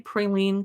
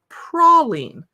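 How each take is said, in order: First: It is said in the West Coast way. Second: It is said in the Texas way. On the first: The speaker grew up in California. "I say praline because I'm on the West Coast" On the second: Someone who grew up in Texas says it this way. "who grew up in Texas, said praline"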